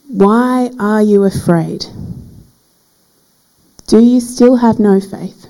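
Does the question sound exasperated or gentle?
gentle. The question sounds gentle and caring. The questioner is reassuring the frightened listeners. "when we read it with different expression"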